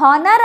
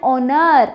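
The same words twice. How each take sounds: First: "honor" beginning with an audible H; sounded H. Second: "honor" starting straight on the vowel; silent H. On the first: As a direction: say "honor" wrongly, as "hon-ar". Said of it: "No, it's not honor". ("honor" ಪದದಲ್ಲಿ H ಉಚ್ಚರಿಸಿ "ಹಾನರ್") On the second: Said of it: "H silent ಇರುತ್ತೆ". ("honor" ಪದದಲ್ಲಿ H ಇಲ್ಲದೆ "ಆನರ್") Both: Shown as a demonstration.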